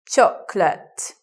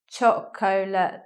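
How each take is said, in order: First: The word is said with two syllables. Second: The word is said with three syllables. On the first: The speaker calls it right. "we just say it with two syllables" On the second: The speaker calls it wrong. "you may anticipate chocolate, but we don't say it that way"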